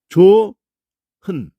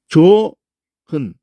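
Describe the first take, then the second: The two takes are said the same way.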